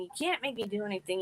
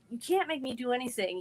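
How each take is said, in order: First: Quicker, softer repeat of the protest; retold scream. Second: Mild mock yell, slightly raised; defiant but understated, no real shout; retold scream. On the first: Cornered girl repeating protest to bullies, quick and subdued. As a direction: rush the defiant words, half-hearted. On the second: Cornered girl recalling yelling at bullies, mild mock defiance. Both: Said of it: "I was screaming and yelling at 'em".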